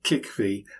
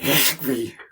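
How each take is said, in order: First: The word begins with a plain hard k sound. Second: The word begins with a throaty, throat-clearing sound. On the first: This is a simplified pronunciation. The speaker calls it wrong. "For ease, I say something like Kickvy" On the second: This is closer to the real pronunciation. The speaker calls it right. "but it's more like Hekvy"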